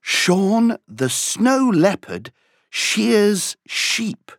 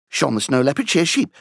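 First: It is said at a moderate pace. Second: It is said at a very fast pace.

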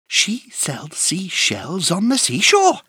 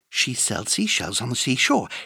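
First: It is said at a fast pace. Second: It is said at a very fast pace.

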